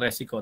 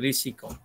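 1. Vokal pertama berbunyi seperti 'e'. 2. Vokal pertama berbunyi seperti 'i'. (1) "bukan resiko" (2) "risiko yang betul"

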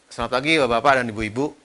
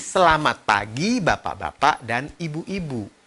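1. Diucapkan sambil bergumam, gerakan mulutnya sedikit. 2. Setiap suku kata diucapkan dengan jelas dan lengkap. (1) "Itu bergumam" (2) "Semuanya harus jelas"

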